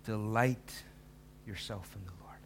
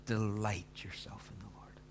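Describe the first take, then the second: First: Delight said once, fading to a whisper on yourself in the Lord; first reading. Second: Slow, whispered, leaning on Delight; emphasis on Delight. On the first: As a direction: read it once, dropping away after Delight. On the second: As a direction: whisper it slowly, weighting Delight. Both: Shown as a demonstration. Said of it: "Can't emphasize that first words more".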